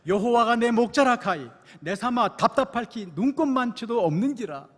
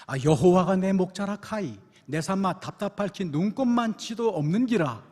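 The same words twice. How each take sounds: First: Louder, higher Gyeongsang dialect retake; stronger Gyeongsang dialect. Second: Loud, hearty Gyeongsang dialect reading. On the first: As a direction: push the Gyeongsang accent harder this time. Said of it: "다시 한번". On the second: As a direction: belt the psalm out in broad Gyeongsang speech. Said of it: "먼저 경상도 버전입니다". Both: Retold or imitated.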